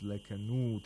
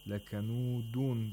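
First: The word stops sharply on a bare d. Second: The word ends with a nasal -un ending. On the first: The reader stops on this word. "as a result of waqf" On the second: The word is read without stopping on it. "Lakanudun becomes lakanud"

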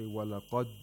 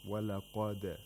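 First: The final d stops flat without a clear release. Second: The final d bounces off clearly with a release. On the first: The speaker calls it wrong. "you can't hear the دال clearly enough" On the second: The speaker calls it right. "the sound of that letter bouncing off from its place of articulation, like this"

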